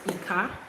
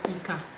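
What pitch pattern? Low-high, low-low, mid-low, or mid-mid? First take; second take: low-high; low-low. First: The pitch goes from low to high. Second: The pitch stays low on both syllables. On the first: "that is Domi" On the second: "that's Dodo"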